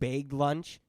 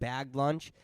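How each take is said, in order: First: It is said with a Canadian pronunciation. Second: It is said with a non-Canadian pronunciation. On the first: "I've heard some say" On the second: "instead of"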